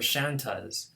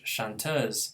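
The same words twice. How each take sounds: First: The stress is on the first syllable. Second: The stress is on the last syllable. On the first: This is the British way, using the native English pattern. "apply their native English stress pattern" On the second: This is the American way, keeping the French pattern. "Americans are fine to say"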